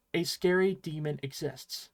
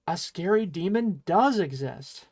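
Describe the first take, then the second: First: Said in the usual way. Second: "does exist" pushed, "does" punched louder; stress on exist. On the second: Shown as a demonstration. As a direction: lean hard on "does exist". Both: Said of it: "Emphasis on exists".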